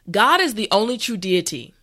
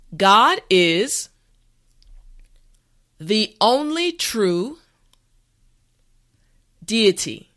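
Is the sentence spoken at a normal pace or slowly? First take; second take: normal pace; slowly. First: The sentence is spoken at a normal pace. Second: The sentence is spoken slowly and carefully. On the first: "the last time at a regular pace" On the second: "this time repeat after me"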